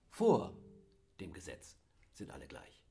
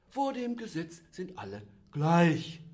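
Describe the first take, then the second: First: The stress is on "Vor". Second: The stress is on "gleich".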